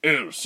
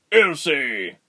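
First: Said in the usual way. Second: Loud, high alarmed shout; father's cry. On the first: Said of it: "he replied". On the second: A narrator's reading. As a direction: cry out the child's name in alarm. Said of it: "her father cried".

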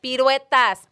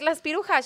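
First: "Piruetas" said properly, weh in the middle; mom's firm correction of "Piruetas"; correct Spanish pronunciation. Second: "pirujas" with a j sound in place of "piruetas"; child's mispronunciation. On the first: Mom correcting her daughter, saying "Piruetas" properly. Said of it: "She's like". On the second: Little girl asking mom for cookies, saying "pirujas" wrongly. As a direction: say "Las pirujas" the way a kid gets it wrong. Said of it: "I'm like". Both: Retold or imitated.

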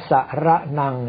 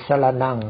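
First: สระนัง with each อะ given a full, distinct syllable; over-full vowel. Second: สรณัง with the first อะ cut to half a sound; half vowel. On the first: Monk showing a common error, full vowels in สระนัง. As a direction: sound out สะ-ระ-นัง with full vowels. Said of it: "ชัดๆ ซึ่งนั่นเป็นการออกเสียงสระเต็มคำที่ผิดพลาด". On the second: Monk teaching Pali pronunciation, half-length vowel in สรณัง. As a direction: glide lightly through the short vowel in สรณัง. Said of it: "ไม่ใช่ออกเสียงสระอะเต็มที่ แต่เป็นอัฏฐสระ". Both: Shown as a demonstration.

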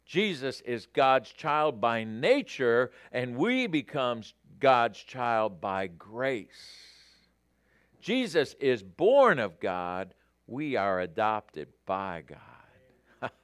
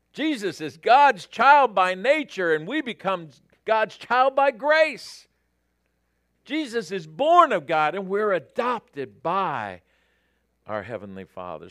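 First: Slow, deliberate reading with long pauses; unhurried, weighty pulpit reading; measured quote reading. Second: Loud, high, excited preaching; fired-up pulpit delivery, ringing out; exultant proclamation. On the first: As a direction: let each phrase settle, easing down at the end. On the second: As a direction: proclaim it with rising joy to the room. Excited repeat of quote after "great. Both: Real, not acted.

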